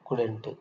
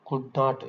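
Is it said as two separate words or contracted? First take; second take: contracted; separate. First: It is said as one contracted word. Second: It is said as two separate words.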